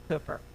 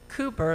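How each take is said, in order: First: The first vowel is short, as in cooker. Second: The first vowel is long, as in super. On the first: It is how locals say it. The speaker calls it right. "like the cooker, like a slow cooker" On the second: It marks someone from out of town. The speaker calls it wrong. "it rhymes with super"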